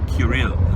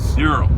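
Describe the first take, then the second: First: The name is said in its older, ancient form. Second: The name is said in its usual modern form.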